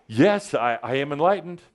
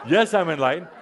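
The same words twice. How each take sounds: First: With attitude. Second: With a smile and a laugh. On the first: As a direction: say it with a bit of swagger. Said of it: "say it with a bit of an attitude, some acting". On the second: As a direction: say it smiling, half laughing. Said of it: "you say it with a smile and a laugh". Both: Shown as a demonstration.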